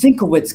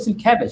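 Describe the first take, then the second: First: The name sounds like Sinkowitz. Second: The name sounds like Sienkiewicz. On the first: This is how the name was read before hearing it said. The speaker calls it wrong. "Who's this Sinkowitz guy?" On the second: This is how others said the name. The speaker calls it right. "you guys said Bill Sienkiewicz"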